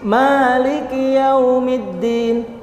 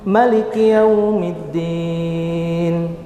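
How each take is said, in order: First: The first vowel 'ma' is drawn out long. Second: The first vowel 'ma' is kept short. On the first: It follows one school's reading. "di surat Al-Fatihah panjang ya maknya" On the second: It follows another school's reading. "pendek maknya"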